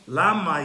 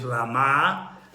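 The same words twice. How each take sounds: First: The stress is on the first syllable. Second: The stress is on the second syllable. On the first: "The emphasis is on the first syllable" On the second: "the emphasis is on the second syllable"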